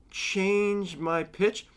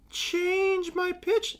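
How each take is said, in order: First: High, drawn-out, very slow; raised pitch. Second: Very high squeaky falsetto, drawn out; exaggerated high pitch. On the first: Speaker testing their own pitch, high and drawn out. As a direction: stretch the words out slowly in a raised pitch. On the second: Speaker mocking their monotone, absurdly high slow falsetto. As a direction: slide way up into a silly, slow falsetto. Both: Shown as a demonstration.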